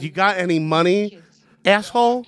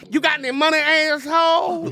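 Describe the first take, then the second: First: It is said plainly, with little attitude. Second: It is said with strong, sassy attitude.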